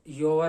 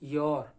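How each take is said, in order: First: The final r sound is strong. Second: The final r sound is very light. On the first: The speaker calls it wrong. "योर नहीं" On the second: The speaker calls it right. "आर बहुत हल्का सा बोलना है"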